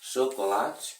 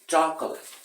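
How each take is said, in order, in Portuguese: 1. Ela é pronunciada com sons portugueses. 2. Ela é pronunciada com sons ingleses.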